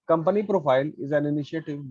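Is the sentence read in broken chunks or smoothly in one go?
smoothly. It is read smoothly without breaks. The speaker calls it right. "एक line में पढ़ो तो वो समझ में आएगा"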